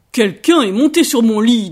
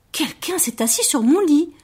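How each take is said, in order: First: Very loud, booming bear; Papa Bear's big voice. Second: Mama Bear's gentle voice. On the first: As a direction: roar it as an indignant papa bear. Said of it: "dit papa ours d'une très grosse voix". (très grosse voix de papa ours, tonnante) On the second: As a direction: keep it gentle, in a higher pitch. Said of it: "dit maman ours d'une voix toujours douce". (voix douce de maman ours, plus aiguë) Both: A narrator's reading.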